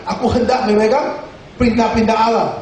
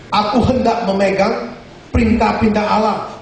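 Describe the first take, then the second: No difference in how they are said.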